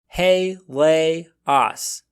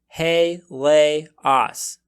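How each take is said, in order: No difference in how they are said.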